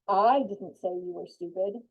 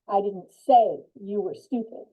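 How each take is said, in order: First: The stress is on the word I. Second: The stress is on the word say.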